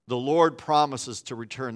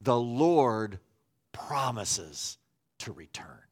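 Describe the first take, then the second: First: Said in the usual way. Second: Sinking, hushed final words; The Lord promises to return, fading low; slow solemn label. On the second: Shown as a demonstration. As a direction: lay it down slowly, voice dropping low. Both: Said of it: "if I were to put a label on it".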